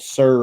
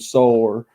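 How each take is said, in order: First: The word has a plain standard vowel. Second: The word sounds close to 'sore'. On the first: "instead of calling people sir" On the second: "I'll call them sore"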